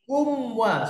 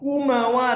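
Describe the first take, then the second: First: The m runs cleanly into the w. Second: An extra vowel follows the m sound. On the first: The speaker calls it right. "tapi kumwa" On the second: The speaker calls it wrong. "Bukan kumawa"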